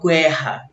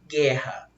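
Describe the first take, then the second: First: A U sound is heard after the G. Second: No U sound is heard after the G. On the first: The speaker calls it wrong. "Eu não falo guerra" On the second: The speaker calls it right. "o U não foi pronunciado"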